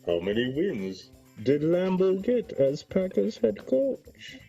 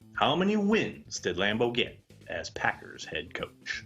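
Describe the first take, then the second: First: It is read in a put-on character voice. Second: It is read in a natural speaking voice.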